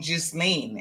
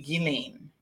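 First: The name is said with an S sound. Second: The name is said without an S sound. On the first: The speaker calls it wrong. "I was pronouncing the S. So I was saying Ghislaine" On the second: The speaker calls it right. "and it's actually Ghislaine"

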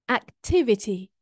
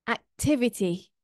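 No difference in how they are said.

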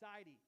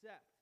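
First: The name is said as two syllables. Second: The name is said as one syllable. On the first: This is closer to the original Egyptian pronunciation. "I think the Egyptian pronunciation is more like Sidi" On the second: This is the common modern pronunciation. "most pronunciations say that it's pronounced Seth"

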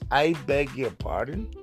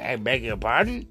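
First: It sounds sincere and apologetic. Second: It sounds offended and indignant.

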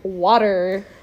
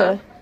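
First: It is said in an American accent. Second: It is said in a British accent.

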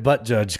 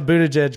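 First: The name begins with a short 'butt' sound. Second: The name begins with a long 'booty' sound. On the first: The speaker calls it wrong. "Pronounced it wrong" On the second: The speaker calls it right.

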